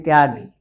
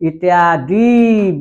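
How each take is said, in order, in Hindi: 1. अंतिम स्वर ह्रस्व है, छोटा और जल्दी बोला जाता है। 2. अंतिम स्वर दीर्घ है, खींचकर लंबा बोला जाता है। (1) "ह्रस्व बोलते हैं बहुत जल्दी" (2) "दीर्घ होगा, गलत हो जाएगा"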